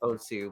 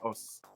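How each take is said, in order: First: The word is said with two syllables. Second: The word is said with one syllable. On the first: Many people say it this way. The speaker calls it wrong. "a lot of people pronounce it Osu" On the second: This is believed to be the real pronunciation. The speaker calls it right. "I'm pretty sure it's pronounced Os"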